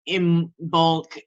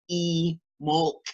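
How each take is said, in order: First: The word begins with an 'im' sound. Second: The word begins with an 'ee' sound. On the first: This is the usual modern pronunciation. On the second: This is the old ancient pronunciation.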